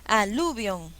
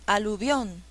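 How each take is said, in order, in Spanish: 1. El acento está en la segunda sílaba. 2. El acento está en la última sílaba. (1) "yo no conozco esa palabra" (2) "ahí sí"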